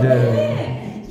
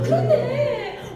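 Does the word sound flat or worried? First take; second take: flat; worried. First: It is said flatly, without feeling. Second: It is said in a worried, anxious tone. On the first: The speaker calls it wrong. "이게 아니라" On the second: The speaker calls it right. "그런데 할 때는 얼굴에서 표정도 걱정 가득한 얼굴"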